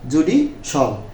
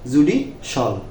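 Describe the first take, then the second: First: The ending is one syllable, 'shal'. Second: The same.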